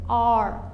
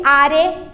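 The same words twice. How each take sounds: First: "Are" as one syllable, "ar"; swallowed final vowel. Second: "are" as two syllables, "ah-ree"; loud, slow "are" with the last vowel pronounced; sounded final E. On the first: Teacher models the correct form, "Are" with silent E. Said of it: "a gente engole ela". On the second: Teacher shows what to avoid, "are" as "ah-ree". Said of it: "Nada de are". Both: Shown as a demonstration.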